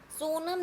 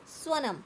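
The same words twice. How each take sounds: First: सोनम with a long o after s; mispronunciation example. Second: स्वनम with sw blended, falling at the end; correct pronunciation model. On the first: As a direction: show the mistaken so-nam in सोनम. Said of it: "सोनम नहीं बोलना है". (सोनम, स्व की जगह सो) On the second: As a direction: say स्वनम crisply as swa-nam. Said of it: "क्या बोलना है?". (स्वनम, स्व मिलाकर साफ़) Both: Shown as a demonstration.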